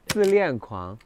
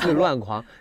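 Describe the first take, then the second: First: The middle syllable is pronounced lian. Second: The middle syllable is pronounced luan. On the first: The speaker calls it right. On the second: The speaker calls it wrong.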